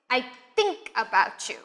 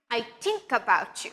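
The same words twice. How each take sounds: First: "think" with too little air through the TH; underpowered TH at the start of "think"; weak TH. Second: "think" said as "tink"; hard T replacing the TH in "think". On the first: Teacher demonstrates a learner's mistake, weak airless TH in "think". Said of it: "not be pushing the air through enough". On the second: Teacher demonstrates a learner's mistake, "think" with a T sound. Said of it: "just a T sound". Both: Shown as a demonstration.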